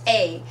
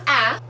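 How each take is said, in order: First: The vowel is the long a, as in cake. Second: The vowel is the short a, as in cat. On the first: The speaker calls it right. "Long A" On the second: The speaker calls it wrong. "Not A, like the shorts"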